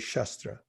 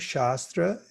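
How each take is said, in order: First: The first vowel is short. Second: The first vowel is long. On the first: It refers to a sword or weapon. "and a short A" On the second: It refers to the wisdom literatures. "a long A"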